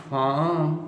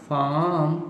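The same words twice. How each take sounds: The two takes are said the same way.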